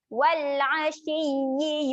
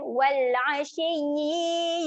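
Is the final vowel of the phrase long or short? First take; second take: short; long. First: The final vowel is kept short. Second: The final vowel is held long. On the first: The speaker calls it right. "yi ni jangan panjangkan. Ha, satu harakat je" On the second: The speaker calls it wrong. "selalu kita baca dia dengan panjang kan?"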